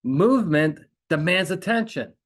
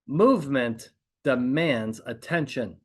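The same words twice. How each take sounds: First: "Movement demands attention" higher and louder, "Movement" punched; emphatic repetition. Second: "Movement demands attention" slow, with pauses between the words; emphatic slow statement. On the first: Coach repeating the principle to make it stick, emphatic. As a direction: drive home "Movement", then "demands attention", raised and loud. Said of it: "we're gonna use repetition and silence". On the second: Coach stating a principle to be repeated, slow and emphatic. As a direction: set out "Movement", "demands", "attention" slowly, one by one. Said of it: "I'll repeat that".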